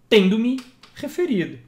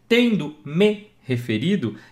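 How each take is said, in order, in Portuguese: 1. O pronome me se junta à palavra anterior, tendo. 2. O pronome me se junta à palavra seguinte, referido. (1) "Para ele estar em ênclise ao auxiliar" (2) "Aqui ele está em próclise ao verbo principal"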